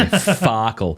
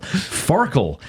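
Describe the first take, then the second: First: Said in the usual way. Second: "Farkle" said slowly with a clear r; "Farkle" spoken carefully, without Australian vowels; careful pronunciation. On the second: Shown as a demonstration. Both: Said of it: "careful with my Australian accent when I say Farkle".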